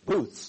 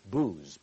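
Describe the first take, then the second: First: The word ends with a th sound. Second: The word ends with a z sound. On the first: The speaker calls it right. "it's not booze, it's booths" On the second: The speaker calls it wrong. "some have mispronounced it booze"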